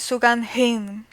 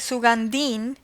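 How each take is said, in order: First: The d is followed by a breathy h. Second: The d is plain, with no breathy h. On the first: The speaker calls it right. "in the correct pronunciation is Sugandhin" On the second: The speaker calls it wrong. "in Spanish we could say Sugandin because in Spanish the H is mu"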